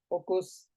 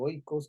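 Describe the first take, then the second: First: The first syllable has a single plain vowel. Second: The first syllable has an oi diphthong. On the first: "no más que en griego no hay diptongos" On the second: "como está escrito"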